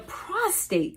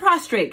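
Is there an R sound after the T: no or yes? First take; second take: no; yes. First: No R sound follows the T. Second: An extra R sound follows the T. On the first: The speaker calls it right. "I'm actually talking about the prostate gland" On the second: The speaker calls it wrong. "it's not a prostrate"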